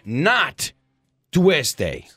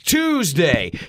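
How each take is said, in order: First: Tuesday is said with a non-English pronunciation. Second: Tuesday is said with an English pronunciation. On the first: The speaker calls it wrong. "It's never Tuesday, not in English at least" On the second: The speaker calls it right. "It's Tuesday"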